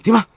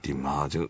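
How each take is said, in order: First: It is said in a bright, alert voice. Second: It is said in a low, sleepy voice. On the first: The caller feels confident in the person answering. The speaker calls it right. "就算我其实都晕到病晒啊，轻晒机嘅，我就喂点啊？" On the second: The caller immediately loses confidence. The speaker calls it wrong. "你一个精神状态嘅啫。唉，点啊？佢即时冇信心嘅。"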